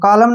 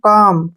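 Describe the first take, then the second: First: The L sound is pronounced. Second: The L sound is silent. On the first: The speaker calls it wrong. "कालम नहीं पढ़ना है" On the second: The speaker calls it right. "एल को फिर छोड़ देंगे हम"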